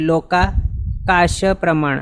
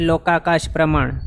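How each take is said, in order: First: The first word is split with a break inside. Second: The first word is said whole without a break.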